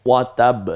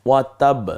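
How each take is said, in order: The two takes are said the same way.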